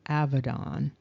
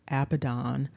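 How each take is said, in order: First: The second consonant is a v sound. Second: The second consonant is a b sound. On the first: "which is also pronounced Avadon" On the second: "this construct Abaddon"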